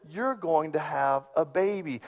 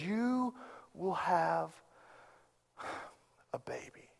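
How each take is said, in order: First: Said in the usual way. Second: Soft, unvoiced whisper of a promise; hushed. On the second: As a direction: drop to a near whisper, voice fading away.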